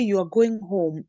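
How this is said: The voice falls at the end. It is a statement. "it is a flat. A flat, it's a statement. So we call it a falling intonation"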